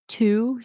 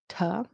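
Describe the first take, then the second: First: The word has a full vowel. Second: The word has a reduced vowel. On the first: "instead of to" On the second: "Function words reduce"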